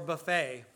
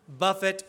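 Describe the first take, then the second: First: The stress is on the second syllable. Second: The stress is on the first syllable. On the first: It means an all-you-can-eat meal. "you're at Golden Corral" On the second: It means to strike or beat. "You're in the gym"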